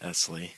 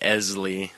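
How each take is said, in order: First: The middle consonant is a hissing S sound. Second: The middle consonant is a buzzing Z sound. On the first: The speaker calls it right. "It's an S, not a Z, though, just Ezley" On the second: The speaker calls it wrong. "people that get it close still say it wrong"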